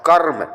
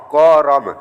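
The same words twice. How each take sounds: First: कर्म joined, karm, with no vowel after r; correct pronunciation. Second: करम with a full vowel, ka-ram; wrong pronunciation. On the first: Teacher models the correct reading for students, karm. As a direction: blend कर्म into one word, karm. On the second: Teacher demonstrates the wrong reading to students, ka-ram. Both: Shown as a demonstration. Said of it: "अब इसको करम नहीं पढ़ेंगे".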